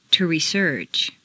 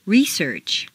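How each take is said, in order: First: ReSEARCH, stressed on the second syllable. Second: REsearch, stressed on the first syllable. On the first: Teacher models verb "research", second-syllable stress. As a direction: hit SEARCH in "research". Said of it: "to the second syllable". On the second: Teacher models noun "Research", first-syllable stress. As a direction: hit RE in "Research". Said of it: "first syllable for nouns". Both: Shown as a demonstration.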